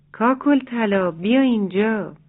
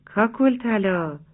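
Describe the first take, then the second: First: Calling out. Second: Slow drawn-out call across the farmyard. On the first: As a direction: call her over from the fence. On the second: Rooster calls his chick friend from the fence, drawn out. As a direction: call her name slowly from the fence. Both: Acted. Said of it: "از روی چپر صدا زد".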